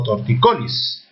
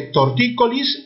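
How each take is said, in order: First: "torticolis" as tor-ti-CO-lis; stress on CO. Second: "tortícolis" as tor-TÍ-co-lis; stress on TÍ. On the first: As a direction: move the weight of "torticolis" onto CO. ("torticolis" con acento en CO) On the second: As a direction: hit the second syllable of "tortícolis". ("tortícolis" con acento en TÍ) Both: Shown as a demonstration. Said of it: "palabras con doble acentuación".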